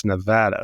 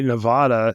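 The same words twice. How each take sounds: First: Nevada with the flat a of cat; Nevada with a short, hard A in the middle. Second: Nevada with an open "ah" in the middle; broad-A Nevada. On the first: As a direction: say Nevada as ne-VAD-a. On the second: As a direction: say Nevada as ne-VAH-da. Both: Shown as a demonstration. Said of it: "same way Nevada is not Nevada".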